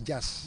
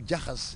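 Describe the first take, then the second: First: It has one syllable with no h sound. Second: It has two syllables with an h between them. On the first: This is how someone unable to say the h sound would say it. "he will say jazz" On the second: This is the original African form of the word. "If you tell him jahas"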